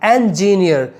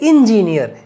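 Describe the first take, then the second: First: The first syllable does not sound like 'in'. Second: The first syllable sounds like 'in'. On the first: The speaker calls it right. "इन में नहीं" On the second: The speaker calls it wrong. "Do not से"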